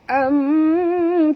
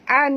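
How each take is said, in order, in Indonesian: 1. Berakhir dengan bibir tertutup pada bunyi m. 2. Berakhir dengan bunyi n yang terbuka. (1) "tutup mulut" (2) "bukan an bunyi tapi bunyi dia am"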